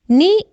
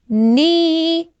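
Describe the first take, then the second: First: The vowel is short and quick. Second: The vowel is long and stretched. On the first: "ni in short" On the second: "ni the long one"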